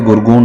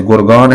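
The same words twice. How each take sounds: First: गुरगून with oo wrongly replacing aa; mistaken colloquialised name. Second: गुरगान keeping long aa before n; correct city name. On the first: Teacher showing what is not said, mistaken pronunciation. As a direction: end गुरगून on -oon as the mistake. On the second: Teacher citing a city name, correct pronunciation. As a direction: leave the -aan ending of गुरगान intact. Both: Shown as a demonstration. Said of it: "गुरगून नहीं बोलेंगे".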